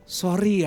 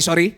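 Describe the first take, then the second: First: It sounds soft, gentle and apologetic. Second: It sounds curt, defiant and challenging. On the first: A sincere request for forgiveness. "Nah enak kan, adem hatinya" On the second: Not an apology but a provocation. "itu namanya bukan minta maaf tapi nantang"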